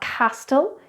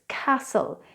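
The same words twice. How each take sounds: First: The T sound in the middle is pronounced. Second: The T sound in the middle is silent. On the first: The speaker calls it wrong. "So it's not castle" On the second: The speaker calls it right. "it's castle"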